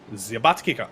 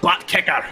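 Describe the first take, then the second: First: The phrase is said in a French-sounding accent. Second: The phrase is said in a Scottish accent. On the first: "that was French" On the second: "I can do it as a Scottish person"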